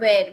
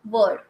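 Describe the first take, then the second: First: The vowel sounds like the one in 'where'. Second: The vowel sounds like the one in 'word'. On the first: The speaker calls it wrong. "not where. Many people they pronounce it as where" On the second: The speaker calls it right. "This is word"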